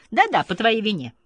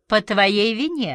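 First: Higher-pitched, emphatic blaming; insistent accusation. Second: Slow, higher, biting accusation; caustic retort. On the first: Madame repeats her accusation in the quarrel, insistently. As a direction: press the blame home. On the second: Madame blames her partner after the failed evening, caustically. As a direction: throw the blame back acidly. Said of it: "отвечала язвительно мадам". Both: A narrator's reading.

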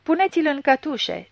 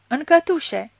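First: Yelled order. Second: Higher, louder shout on cătușe; shouted again. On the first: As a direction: bark the arrest order. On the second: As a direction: throw the word cătușe out as a shout. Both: A narrator's reading. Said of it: "zbieră la Gradora".

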